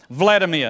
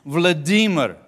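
First: The stress is on the first syllable. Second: The stress is on the second syllable. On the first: The speaker calls it wrong. "No, it isn't" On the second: The speaker calls it right. "You got to get the emphasis on the right syllable"

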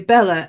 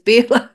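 First: The name is said in an anglicized way. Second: The name is said in the Hungarian way. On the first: The speaker calls it wrong. "we say Bella" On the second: The speaker calls it right. "in actual fact it's Bela"

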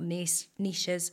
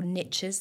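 First: The word is said with a British pronunciation. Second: The word is said with an American pronunciation.

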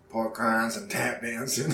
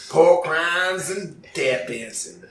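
First: It is said in a neutral, everyday accent. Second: It is said in a Southern accent.

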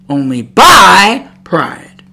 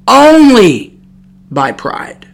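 First: The stress is on "pride". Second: The stress is on "only".

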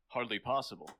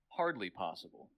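First: It is read with Picard's odd delivery. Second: It is read the natural, expected way.

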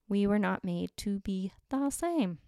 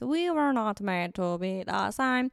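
First: It is said in a normal speaking voice. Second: It is said in a put-on alien voice.

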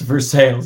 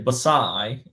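First: The word ends in a 'sales' sound. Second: The word ends in a 'sigh' sound. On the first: This is the local way, as said in Kentucky. "that's not what we say here... it's for sales" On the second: This is the French-style way, as said in England. "I would say Basai"

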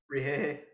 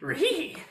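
First: It is said in the speaker's normal voice. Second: It is said imitating Scooby-Doo's voice.

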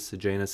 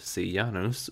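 First: The name is said with common English pronunciation. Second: The name is said with Latin pronunciation. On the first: "you'll probably hear it as Sejanus" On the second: "which is actually the true Latin pronunciation"

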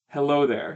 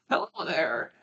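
First: It is said in a normal voice. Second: It is said in an old lady voice.

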